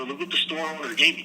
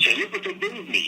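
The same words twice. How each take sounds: First: Said in the usual way. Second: High proud dad voice; imitating dad. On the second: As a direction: show off the gift like his father. Dad showing off free record.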